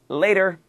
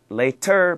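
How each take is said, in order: First: The middle consonant is a soft D-like tap. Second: The middle consonant is a clear T sound. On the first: The speaker calls it right. "but later" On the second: The speaker calls it wrong. "Not later"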